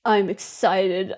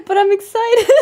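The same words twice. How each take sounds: First: Low, slow, soft and grim; excited words, angry tone; angry-sounding excitement. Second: Higher-pitched excited insistence; excited correction, pitched up. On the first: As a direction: claim excitement in a grumpy low voice. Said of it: "I sound angry". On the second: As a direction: lift it up to prove the excitement. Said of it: "I sound angry, but I'm excited". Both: Real, not acted.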